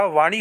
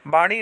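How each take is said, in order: First: वाणी as "vaa-ni"; correct v sound. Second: वाणी as "baa-ni"; wrong b sound. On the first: Teacher giving students the right form, clear v. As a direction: start वाणी with v. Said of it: "होती है". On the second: Teacher showing students the mistake, b substituted. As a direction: start वाणी with b. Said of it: "नहीं होता". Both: Shown as a demonstration.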